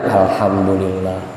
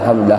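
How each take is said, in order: First: It is said slowly and fully. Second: It is said fast and clipped.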